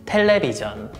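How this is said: It is said with Korean pronunciation. "Korean pronunciation"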